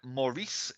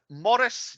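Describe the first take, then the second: First: The name is said in an American way. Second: The name is said in a non-American way.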